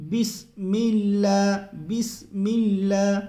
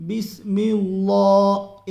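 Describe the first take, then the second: First: بسم اللہ with اللہ kept thin and light, slowly; correct light Allah. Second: بسم اللہ with اللہ made heavy, slow and loud; wrong heavy Allah. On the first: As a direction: say it properly, اللہ light and unstressed. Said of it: "باریک ہی پڑھنا ہے". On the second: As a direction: demonstrate the mistake, over-filling اللہ. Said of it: "غلطی ہوتی ہے". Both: Shown as a demonstration.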